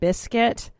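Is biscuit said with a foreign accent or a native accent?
native. The word has a native English pronunciation. This is the usual way to say it. The speaker calls it right. "instead of biscuit"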